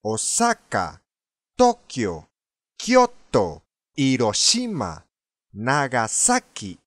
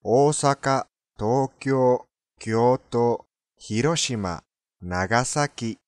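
First: "大阪", "東京", "京都", "広島", "長崎" with short first vowels and one punched syllable each; Spanish stress. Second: "大阪", "東京", "京都", "広島", "長崎" evenly with long vowels; Japanese intonation. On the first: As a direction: stress sa in "大阪", shi in "広島", sa in "長崎". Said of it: "なぜかスペイン語で、". (「大阪」から「長崎」までスペイン語風の強勢で) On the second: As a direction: recite "大阪" to "長崎" with level Japanese pitch. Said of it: "日本語で大阪、". (「大阪」から「長崎」まで日本語の抑揚で) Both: Shown as a demonstration.

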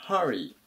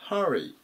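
First: 正しい発音のhurry; model pronunciation. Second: Haの音で読むhurry; model pronunciation. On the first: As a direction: hurry lower, first vowel as は. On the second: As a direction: hurry with the first vowel as は. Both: Shown as a demonstration. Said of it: "ふって読まないようにしましょう".

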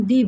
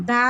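First: দি with an "ee" vowel; "the" as "dee". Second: দা with an open "aa" vowel. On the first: Teacher contrasting two readings of "the", "dee" sound. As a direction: say "the" as দি, as before vowels. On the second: Teacher contrasting two readings of "the", "da" sound. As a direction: say "the" as দা, as before consonants. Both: Shown as a demonstration. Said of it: "দা এবং দি বলি".

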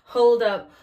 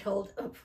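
First: Loud Hold up with falling end. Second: Said in the usual way. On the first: Real, not acted. Loud Hold up as she realises the power is still on. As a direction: stop everything with Hold up. Louder retake correcting herself.

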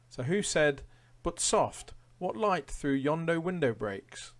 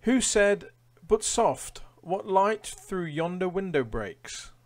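First: Said in the usual way. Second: Much higher and louder, theatrical reading; dramatic quiz read. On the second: Acted. Quizmaster reading a Shakespeare quote to players, theatrical. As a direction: give the Shakespeare line a grand flourish.

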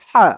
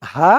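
First: হা thick and full; a fuller, thicker হা. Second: হা thin, drawn from inside the throat; a slim, throaty হা. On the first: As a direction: say হা with a heavy, broad sound. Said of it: "আর এটা মোটা হয়ে আসবে". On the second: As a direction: say হা finely from the throat. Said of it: "গলার ভিতর থেকে চিকন হয়ে শব্দ আসবে". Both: Shown as a demonstration.

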